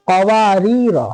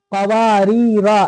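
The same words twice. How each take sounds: First: "कवारीरा" with long waa and rii, short final ra; quick final syllable. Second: "कवारीरा" with the final raa wrongly stretched; common misreading. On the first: Shown as a demonstration. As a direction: release the last vowel of "कवारीरा" quickly. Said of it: "जल्दी पढ़ेंगे". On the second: Retold or imitated. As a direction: hold the last vowel of "कवारीरा". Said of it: "ऐसे पढ़ते हैं".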